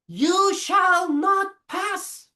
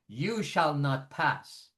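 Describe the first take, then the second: First: It is said in a strained, painful-sounding voice. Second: It is said at a normal speaking pitch. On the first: "That that hurts" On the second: "That's my regular pitch"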